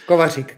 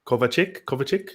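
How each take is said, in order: First: Kovacic said the Czech way, with a rolled r in the middle; native Czech pronunciation. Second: Kovacic tried in a hesitant, anglicised way, a hard t in place of the rolled r; attempted pronunciation. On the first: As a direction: say Kovacic as a Czech speaker would, rolling the r. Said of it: "Can you pronounce it?". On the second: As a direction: struggle through Kovacic with an Australian accent, questioning. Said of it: "Sounds like you're rolling a letter in there". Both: Shown as a demonstration.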